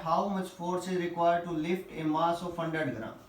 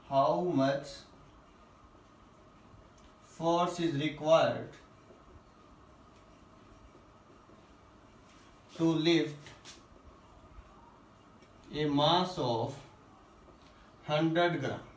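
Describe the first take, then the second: First: Said in the usual way. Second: Phrase by phrase with long pauses; slow dictation. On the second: Real, not acted. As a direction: dictate it in short chunks, waiting after each.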